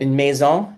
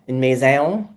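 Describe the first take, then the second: First: The vowel is pronounced the standard French way. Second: The vowel is pronounced the local Clare way. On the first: "des on va tourner dans des on" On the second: "des on va tourner dans des on"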